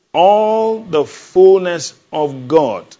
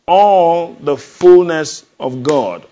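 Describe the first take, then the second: First: Slow, loud, drawn-out proclamation; booming slow sermon climax; proclaiming. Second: Slow, loud, drawn-out proclamation; booming slow sermon climax; proclaiming again. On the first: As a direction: stretch each word like a preacher's cry. Preacher proclaiming to congregation. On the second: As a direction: lean into ALL and stretch it. Preacher repeats proclamation. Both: Acted.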